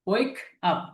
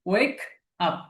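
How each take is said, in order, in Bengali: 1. "wake up" শব্দ দুটি বিরতি দিয়ে আলাদা করে বলা হয়। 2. "wake up" শব্দ দুটি বিরতি দিয়ে আলাদা করে বলা হয়।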